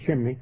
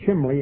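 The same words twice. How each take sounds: First: The word has the standard pronunciation. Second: The word has a colloquial dialect pronunciation. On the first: This is the usual way to say it. "instead of chimney" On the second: This is how it was said in childhood. "we said chimney"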